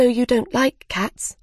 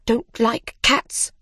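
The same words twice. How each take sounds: First: Put-on higher, conciliatory storybook girl; apologetic realisation. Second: Slow, higher-pitched indignant echo; indignant cry. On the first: Alice apologising to the mouse, higher conciliatory voice. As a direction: say it as a dawning realisation. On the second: Mouse echoes Alice's words, slow indignant cry. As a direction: repeat it slowly, affronted. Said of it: "cried the mouse". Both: A narrator's reading.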